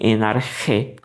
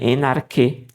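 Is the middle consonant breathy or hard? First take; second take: breathy; hard. First: The middle consonant is a breathy rasping sound. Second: The middle consonant is a hard k sound. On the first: "Quem lê como ri, né? Uma espécie de ri, ... com esse, esse sopro" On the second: "quem lê a pronúncia dessa letra aqui como, como ki, ou como k"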